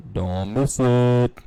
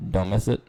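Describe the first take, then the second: First: Slow, louder, stretched "Don't miss it"; hype-man promo delivery; drawn-out emphatic plug. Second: Said in the usual way. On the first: Acted. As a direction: lean on it like a promo tagline.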